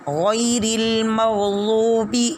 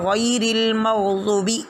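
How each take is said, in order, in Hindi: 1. लंबे स्वर को उसकी पूरी लंबाई तक खींचा जाता है। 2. लंबे स्वर को छोटा कर दिया जाता है और वह अस्पष्ट हो जाता है।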